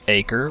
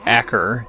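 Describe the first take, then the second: First: The name is said the usual English way. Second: The name is said the local way.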